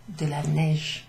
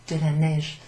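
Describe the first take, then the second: No difference in how they are said.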